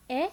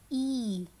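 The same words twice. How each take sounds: First: Brief rising "eh"; short E sound. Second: "E" held as "eee"; long E sound. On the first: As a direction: keep "eh" short, as a question. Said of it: "hear the short sound". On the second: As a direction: stretch "E" out. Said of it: "or the long sound". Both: Shown as a demonstration.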